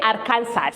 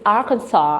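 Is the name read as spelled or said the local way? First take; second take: as spelled; local way. First: The name is read out as it is spelled. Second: The name is said the local way. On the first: The speaker calls it wrong. "So you don't say Arkansas" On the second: The speaker calls it right. "But no, it's Arkansas"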